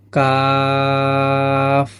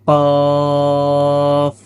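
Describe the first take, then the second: First: কাফ with its vowel held for four alifs; long drawn sound. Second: Said in the usual way. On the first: Shown as a demonstration. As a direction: draw out কাফ slowly. (কাফ চার আলিফ লম্বা টেনে) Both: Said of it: "চার আলিফ টান হবে এবং কাফ".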